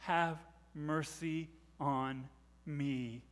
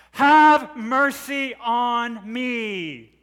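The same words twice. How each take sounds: First: Slow, low, soft plea; hushed plea. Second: Long, high, loud cry for mercy; desperate shout. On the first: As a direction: say each word softly, drawn out. Hushed repeat after the shout. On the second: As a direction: shout it slowly with a drawn-out plea. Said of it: "she shouts again". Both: Acted.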